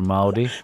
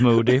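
First: The first vowel sounds like 'ow', rhyming with 'howdy'. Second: The first vowel sounds like 'oo', as in 'moody'. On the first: It is said to rhyme with the greeting. The speaker calls it wrong. "det gör man om det står Howdy innan" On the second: It is the name's actual pronunciation. The speaker calls it right. "It's Moody"

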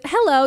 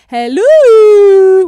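First: The hello is short and flat. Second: The hello is drawn out and excited.

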